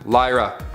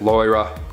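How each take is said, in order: First: The name is said in a plain voice. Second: The name is said with a put-on accent.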